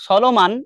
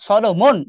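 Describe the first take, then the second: First: সলোমান with a long open "maan" ending to rhyme with ম্যান; wrong pronunciation. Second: সলোমন ending in a short "mon", not "maan"; correct pronunciation. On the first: Teacher demonstrates the mispronunciation students make. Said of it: "depend করে তুমি কিভাবে উচ্চারণ করছো". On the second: Teacher demonstrates the correct name pronunciation. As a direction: say সলোমন with a clipped "mon" at the end. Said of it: "তুমি যদি উচ্চারণ করো". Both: Shown as a demonstration.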